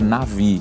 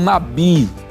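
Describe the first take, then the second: First: The middle consonant is a V sound. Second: The middle consonant is a B sound. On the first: The speaker calls it right. "a pronúncia correta seria navi" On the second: The speaker calls it wrong. "às vezes a gente escuta alguém dizer"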